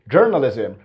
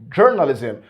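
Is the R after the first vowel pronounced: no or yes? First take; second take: yes; yes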